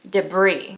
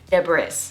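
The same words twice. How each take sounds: First: The word ends without any S sound. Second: The word ends with an audible S sound. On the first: The speaker calls it right. "with a hard I sound and no S sound" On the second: The speaker calls it wrong. "think the right pronunciation is debris or something like along the lines of that"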